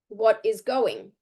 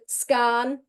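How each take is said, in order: First: Each word is said fully and separately. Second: The words are squeezed into one short reduced chunk. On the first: "The actual words are" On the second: "what are the actual words for scan?"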